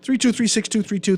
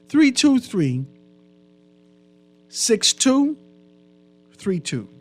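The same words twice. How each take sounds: First: The numbers are said quickly in one run. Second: The numbers are said slowly in groups.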